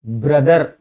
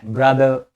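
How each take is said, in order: First: ब्रदर with a sounded final r; ब्रदर ending in a clear "ar"; unimpressive pronunciation. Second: ब्रदर with a silent r, "bra-dhuh"; ब्रदर without the final r; stylish pronunciation. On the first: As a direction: say ब्रदर as "bra-dar". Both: Shown as a demonstration. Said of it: "ब्रदर मजा नहीं आया".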